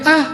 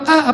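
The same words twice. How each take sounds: First: It sounds like a short cry of pain. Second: It sounds like an annoyed, complaining sigh.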